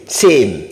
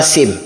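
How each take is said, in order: First: "same" with a long, falling A; stretched A. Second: "same" cut short, with a brief open E; no stretch on the vowel of "same"; wrong short same. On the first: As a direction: pull on the vowel in "same". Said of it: "il faut tirer sur le A". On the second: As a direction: say "same" as a quick "sem". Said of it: "On dit pas same". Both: Shown as a demonstration.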